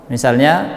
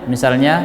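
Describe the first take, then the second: Both takes have the same delivery.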